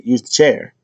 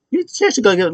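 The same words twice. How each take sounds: First: Said in the usual way. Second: Mock referee warning. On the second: Ref voiced in retelling.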